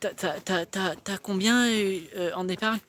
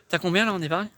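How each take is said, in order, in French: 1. Elle est posée de façon hésitante, avec un euh qui accroche. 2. Elle est posée de façon ferme, sans accroc ni hésitation. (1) "Quelqu'un qui bégaye" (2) "C'est pas la même intonation"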